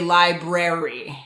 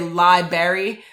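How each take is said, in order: First: Both R sounds are clearly pronounced. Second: The first R sound is left out. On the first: The speaker calls it right. "say library. And so people are forgetting that extra R" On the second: The speaker calls it wrong. "don't say library"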